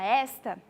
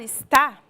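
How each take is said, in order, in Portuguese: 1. A sílaba tônica é a primeira. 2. A sílaba tônica é a segunda. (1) "quando a gente fala esta" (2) "quando a gente fala está"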